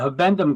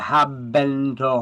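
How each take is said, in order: First: The word is said in its usual form. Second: The word is split to sound like 'have and to'.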